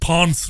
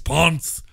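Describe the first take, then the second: First: The name is said with an English pronunciation. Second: The name is said with a Spanish pronunciation. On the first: The speaker calls it wrong. "naysayers in the U K will say it's pronounced Ponce" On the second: The speaker calls it right. "It's Ponce"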